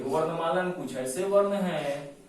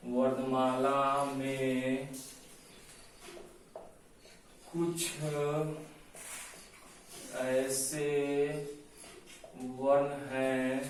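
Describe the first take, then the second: First: Said in the usual way. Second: Very slow, stretched words with long pauses; slow dictation. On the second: Shown as a demonstration. Teacher dictating a definition for notes, slow dictation. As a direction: dictate phrase by phrase, drawing out each word. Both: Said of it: "ऐसे लिखिए".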